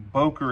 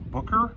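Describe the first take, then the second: First: The name is said the common American way. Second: The name is said closer to the German way. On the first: This is how it is usually heard in the States. The speaker calls it wrong. "I'm pronouncing Boker" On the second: This is the more correct original pronunciation. The speaker calls it right. "more correctly pronounced Booker"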